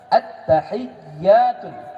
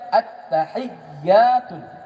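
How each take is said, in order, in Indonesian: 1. Setiap huruf tetap berharakat, dengan ya yang dobel. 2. Setiap huruf tetap berharakat, dengan ya yang dobel.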